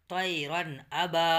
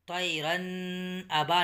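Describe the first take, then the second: First: "طیرن ابا" run smoothly together, slow and clear; joined without pause. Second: "طیرن" then a break before "ابا", split apart; wrong pause demo. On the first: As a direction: link "طیرن" straight into "ابا" with no break. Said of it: "اور جلد پڑھیں گے". ("طیرن ابا" بغیر رکے ملا کر) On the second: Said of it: "یہاں رکیں گے نہیں". ("طیرن" کے بعد رک کر "ابا" — غلط طریقہ) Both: Shown as a demonstration.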